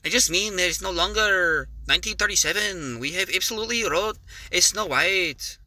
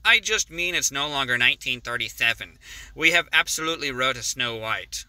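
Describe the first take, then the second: First: It is read in an exaggerated Hispanic accent. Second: It is read in the speaker's normal accent.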